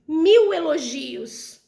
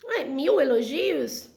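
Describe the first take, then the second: First: Slow, stressing "mil" heavily in "mil elogios"; exaggerating. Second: Slow, puzzled "Ué, mil elogios?"; doubtful question. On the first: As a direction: stretch "mil elogios" slowly, leaning hard on "mil". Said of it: "você faz aquele exagero". (exagero lento com ênfase em "mil") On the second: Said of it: "Não, não foram mil". (pergunta incrédula e lenta) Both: Shown as a demonstration.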